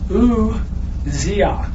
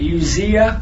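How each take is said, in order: First: The name begins with a long 'ooz' sound. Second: The name begins with a short 'uh' sound. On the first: The speaker calls it right. "at the beginning of it's like O-O-Z" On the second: The speaker calls it wrong. "usually I would say Uzziah"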